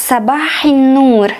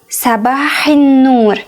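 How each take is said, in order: Both takes have the same delivery.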